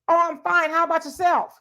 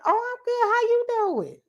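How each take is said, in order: First: It sounds cool and uninterested. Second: It sounds warm and interested.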